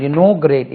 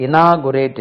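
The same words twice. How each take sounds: First: Inaugurate with a rounded NAW, stressed; in-NAW-gyu-rate for inaugurate; correct pronunciation. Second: Inaugurate with an open NAA; i-NAA-gu-rate for inaugurate; mispronunciation demo. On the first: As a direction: punch the second syllable of inaugurate. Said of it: "inaurate இல்ல". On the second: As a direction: show the faulty AA vowel in inaugurate. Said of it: "inaugurate இல்ல". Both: Shown as a demonstration.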